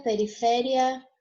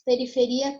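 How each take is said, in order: First: Periféria slowly, stressed on FÉ. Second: Periferia with the stress on final RI. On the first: Teacher gives the Spanish take, stress on FÉ in periféria. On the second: Teacher gives the Portuguese take, stress on RI in periferia. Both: Shown as a demonstration. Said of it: "vai mudar".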